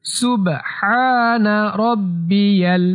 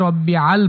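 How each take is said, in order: First: সুবহানা রব্বিয়াল slow, with a long "haa"; সুবহানা রব্বিয়াল in steady, elongated recitation; corrected tasbih pronunciation. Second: রব্বিয়াল said quickly, broken as "rabbi-aal"; রব্বিয়াল quick and conversational, without recitation timing; mispronounced tasbih. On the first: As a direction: recite রব্বিয়াল joined as "rabbi-yal", measured. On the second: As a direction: rush রব্বিয়াল in everyday speech. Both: Shown as a demonstration. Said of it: "এটা ভুল".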